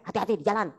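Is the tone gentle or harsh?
harsh. It is said in a curt, harsh tone. The speaker calls it wrong. "Masa eh hati-hati di jalan? Enggak mungkin"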